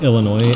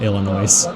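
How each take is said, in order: First: The final s is silent. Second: The final s is sounded. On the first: "pronounced Illinois" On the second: "and not Illinois"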